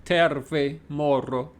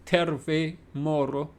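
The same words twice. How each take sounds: First: Terve with a rolled R; Finnish greeting. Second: Terve, moro with an over-the-top rolled R; overdone Scottish-style R in terve, moro; exaggerated rolled R. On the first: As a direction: say terve, moro with the R tapped. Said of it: "the way the R is pronounced". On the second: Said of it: "Maybe that's too over the top". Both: Shown as a demonstration.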